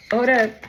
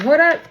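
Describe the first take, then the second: First: Said in the usual way. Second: Higher and louder sudden stop; called out halt. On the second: Retold or imitated. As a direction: cut them off sharply. Spirit interrupts, calling out.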